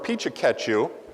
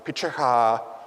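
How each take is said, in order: First: The word is said with four syllables. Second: The word is said with three syllables. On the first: "I pronounce it Pichikachu" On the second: "they're able to say it in like three syllables"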